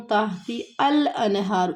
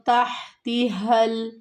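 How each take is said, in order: First: تحتی with a clear ال sound, said slowly as the common mistake; wrong pronunciation demo. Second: تحتها with the ha breathed from the throat; correct ha from the throat. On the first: Teacher shows students the common mistake, tحتی said slowly. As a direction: show the wrong way: تحتی الانہار with ال, not the throat ha. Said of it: "ال کی آواز آتی ہے، یہ ال نہیں ہے". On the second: Teacher models the right reading for students, slow and clear. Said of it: "اب یہ ہا گلے سے ادائیگی ہوگی". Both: Shown as a demonstration.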